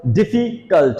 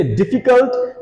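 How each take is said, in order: First: difficult broken in two, diffi, cult; split into syllables. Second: Said in the usual way. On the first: Shown as a demonstration. Teacher asking students to count syllables, difficult said in separated parts. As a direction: separate difficult into beats with a small gap. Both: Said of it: "कितने से".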